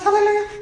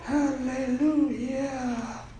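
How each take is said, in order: First: It is said very fast. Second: It is said very slowly.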